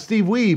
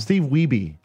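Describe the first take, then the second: First: The surname is said with one syllable. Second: The surname is said with two syllables. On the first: The speaker calls it wrong. "we've been saying it wrong the whole time" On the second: The speaker calls it right. "It's Weeby"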